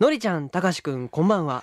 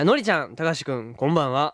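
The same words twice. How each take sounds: First: It is read in a breathy, sultry announcer voice. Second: It is read in a plain, ordinary voice. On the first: "ええ声で読みたいじゃないですか" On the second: "じゃあもう普通に"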